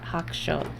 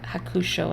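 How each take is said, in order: First: It is said with a Japanese-style pronunciation. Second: It is said with an English-style pronunciation. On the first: This is how someone who knows Japanese says it. The speaker calls it right. "and not" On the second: This is how someone who doesn't know Japanese says it. The speaker calls it wrong. "if you don't know Japanese, I can see you defaulting to"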